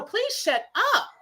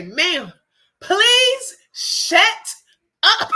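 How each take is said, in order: First: Tempted retort. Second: Louder, higher snap at the lady; blurted retort. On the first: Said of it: "that's what I, I literally, it was on the tip of my tongue". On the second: Her urge to silence the meddling lady, a louder, higher outburst. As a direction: let the held-back retort burst out, louder and higher. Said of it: "I felt it rolling off my tongue". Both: Retold or imitated.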